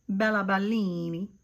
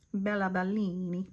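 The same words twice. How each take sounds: First: Said in the usual way. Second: Bella Bellini with a playful Italian lilt, rolling each syllable; Italian accent. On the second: Pretend. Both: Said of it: "since I'm talking in an Italiana accent".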